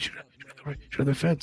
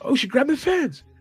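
First: The phrase is said in a quiet whisper. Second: The phrase is said in a loud yell. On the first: "he brings his voice down to whisper" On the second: "DC like yells like"

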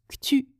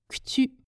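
Both takes have the same delivery.

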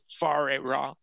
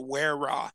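First: The first word begins with an F sound. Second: The first word begins with a W sound. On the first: The speaker calls it right. "the WH is pronounced like an F, like as in food" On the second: The speaker calls it wrong. "A lot of people say Ware Ra"

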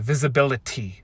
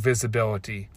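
First: The T sounds are crisply and strongly pronounced. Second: The T sounds are soft, as in normal speech.

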